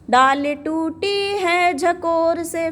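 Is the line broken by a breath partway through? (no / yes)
no. The whole line flows without a breath. The speaker calls it right. "फिर सांस ले लो।"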